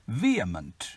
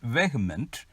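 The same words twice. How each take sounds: First: It uses the recommended pronunciation. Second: It uses the commonly heard pronunciation. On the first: The speaker calls it right. "the right pronunciation is vehement" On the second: The speaker calls it wrong. "This is normally pronounced as vehement"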